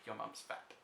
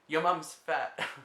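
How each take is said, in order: First: It is muttered quietly under the breath. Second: It is said aloud at normal volume. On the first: It mimics an audience repeating the joke. "repeat it under their breath" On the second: The joke is being told. "they'll say something"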